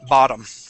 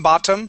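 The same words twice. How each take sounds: First: The middle consonant sounds like a D. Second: The middle consonant is a clear T sound. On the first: "we pronounce it bottom. with a D sound" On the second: "that's the correct pronunciation"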